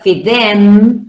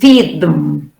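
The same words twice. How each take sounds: First: The word 'them' is said with a full vowel. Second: The word 'them' is reduced with a schwa. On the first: The speaker calls it wrong. "It's not feed them" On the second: The speaker calls it right. "It's a them is weak with the schwa"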